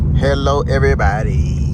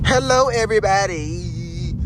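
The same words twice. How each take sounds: First: The greeting is flat and low in energy. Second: The greeting is lively and higher in energy.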